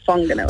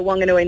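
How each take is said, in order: First: The name begins with an f sound. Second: The name begins with a plain w sound. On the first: "not Whanganui" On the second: "So we say Whanganui"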